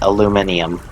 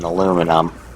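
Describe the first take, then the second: First: The word is said with five syllables. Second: The word is said with four syllables.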